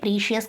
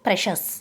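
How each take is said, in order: First: The first vowel is a long ee sound. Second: The first vowel is a short e sound. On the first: The speaker calls it wrong. "ప్రీషియస్ కాదు" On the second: The speaker calls it right. "ఇక్కడ pronunciation చూడండి"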